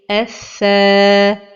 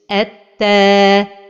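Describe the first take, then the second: First: The doubled consonant sounds like th. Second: The doubled consonant sounds like t. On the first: The speaker calls it right. "la prononciation correcte" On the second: The speaker calls it wrong. "changer le son de la lettre vers le son de la lettre ta"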